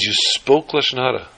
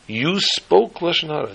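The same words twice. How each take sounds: First: Said in the usual way. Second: "You spoke Lashon Hara" slower, pitched higher, every word weighed; slow grave emphasis. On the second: Acted. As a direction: let the sin sink in slowly. Rabbi repeats the woman's confession.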